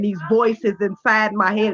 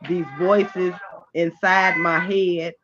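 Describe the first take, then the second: First: It is said louder with a rising pitch. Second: It is said at a normal, level volume. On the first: The audience finally hears and pays attention. The speaker calls it right. "I get a little louder. It's like I make my, my tone go up" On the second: The audience did not catch the line. The speaker calls it wrong. "y'all not hearing me"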